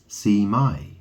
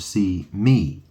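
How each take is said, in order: First: The word ends with an 'eye' sound. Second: The word ends with an 'ee' sound. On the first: "you could pronounce it see my" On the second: "or see me"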